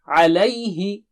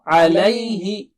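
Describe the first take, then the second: No difference in how they are said.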